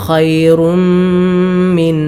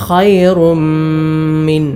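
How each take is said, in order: The two takes are said the same way.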